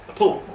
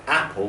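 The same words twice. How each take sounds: First: "apple" with a weak first syllable and a strong "-PPLE"; stress on second syllable. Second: Said in the usual way. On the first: Shown as a demonstration. Teacher showing a wrong stress, "apple" stressed on its second syllable. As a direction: say "apple" as uh-POOL, stressing the end. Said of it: "put the stress on the second syllable". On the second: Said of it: "That would be pronounced not apple".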